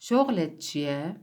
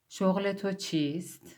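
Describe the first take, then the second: First: The words are shortened and run together. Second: Every word is pronounced fully and carefully. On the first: This is the everyday spoken form. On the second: This is the formal or written form.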